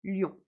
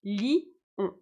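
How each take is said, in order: First: Lion said as a single syllable, ljon; one syllable. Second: Li, on: lion split into two separate syllables. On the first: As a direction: say "lion" in one quick beat. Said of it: "en une seule syllabe". (lion prononcé en une seule syllabe) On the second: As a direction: say "li-on" as two beats. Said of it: "mes deux voyelles en deux syllabes". (lion prononcé en deux syllabes, li-on) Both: Shown as a demonstration.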